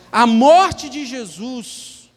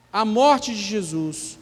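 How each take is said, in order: First: Slow, rising stress on morte; slow emphatic. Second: Said in the usual way. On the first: Shown as a demonstration. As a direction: lean into "morte" slowly and loudly. (ênfase lenta em "morte") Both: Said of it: "Posso falar assim, ó".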